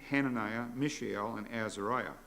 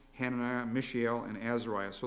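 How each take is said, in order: No difference in how they are said.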